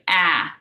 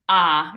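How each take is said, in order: First: The vowel is flat and front, as in apple. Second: The vowel is open and tall, as in father. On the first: The speaker calls it wrong. "a tendency for English speakers is to say ah, because we're used to apple" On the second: The speaker calls it right. "it's pronounced ah. It's a tall ah"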